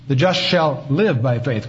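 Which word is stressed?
live. The stress is on the word live.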